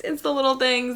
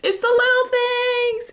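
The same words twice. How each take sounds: First: Said in the usual way. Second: Gushing. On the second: Real, not acted. Gushing over small joys.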